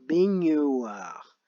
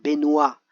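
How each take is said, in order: First: The word is said slowly, gn clearly heard. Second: The word is said quickly, gn sounding like n. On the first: "si on y va tout doucement" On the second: "on a l'impression d'entendre le son ne"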